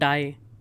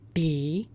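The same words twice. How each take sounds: First: The vowel sounds like 'eye'. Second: The vowel sounds like 'see'. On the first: The speaker calls it wrong. "This is not die" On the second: The speaker calls it right. "its pronunciation is die"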